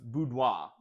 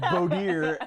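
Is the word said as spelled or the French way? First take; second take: French way; as spelled. First: It is said with the French pronunciation. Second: It is said as its spelling reads.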